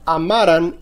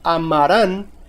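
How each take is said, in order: First: The stress is on the middle syllable. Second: The stress is on the last syllable. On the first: It is a past subjunctive form. "es grave y sin tilde" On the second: It is a future tense form. "es aguda y con tilde"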